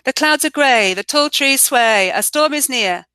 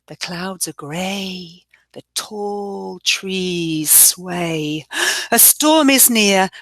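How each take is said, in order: First: It is read plainly, without much feeling. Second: It is read expressively, building a stormy mood. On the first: The speaker calls it wrong. "if I just read the story out" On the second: The speaker calls it right. "like this"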